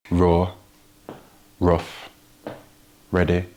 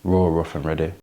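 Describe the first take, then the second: First: Raw, rough, ready each punched louder, with long pauses; three words, one by one. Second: "Raw, rough and ready" said louder in one flowing line; slogan in one breath. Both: Shown as a demonstration. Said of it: "three R's".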